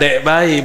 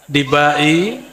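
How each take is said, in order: First: The first vowel sounds like 'e'. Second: The first vowel sounds like 'i'. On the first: The speaker calls it wrong. "bukan Debai" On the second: The speaker calls it right. "Dibai itu nama"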